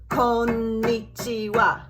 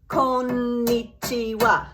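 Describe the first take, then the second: The two takes are said the same way.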